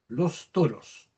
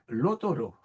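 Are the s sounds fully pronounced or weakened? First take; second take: full; weakened. First: Every s sound is clearly pronounced. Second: The s sounds are weakened or dropped. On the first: "Si lo pronunciamos de manera esmerada" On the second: "Pero realmente se pronuncia lo toro"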